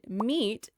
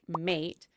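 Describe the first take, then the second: First: The vowel sounds like 'ee'. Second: The vowel sounds like 'ay'. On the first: This is the modern pronunciation. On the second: This is the pronunciation before the vowel shift.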